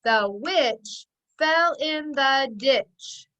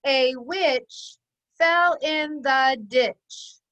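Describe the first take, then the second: First: The witch fell in the ditch, every word tapped out slowly and evenly; slow word-by-word pounding, first article wrong; pounding each word. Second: A witch fell in the ditch, every word tapped out slowly; slow word-by-word pounding, corrected take. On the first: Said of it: "Watch me pound it". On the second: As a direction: beat out "A witch fell in the ditch" with the right article. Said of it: "Not, not the, excuse me, a". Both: Shown as a demonstration.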